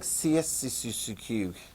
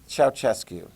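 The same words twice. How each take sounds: First: The name is read with English spelling sounds. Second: The name is said with Romanian sounds. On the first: The speaker calls it wrong. "It looks like Ceausescu" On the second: The speaker calls it right. "I think I know how to pronounce that one"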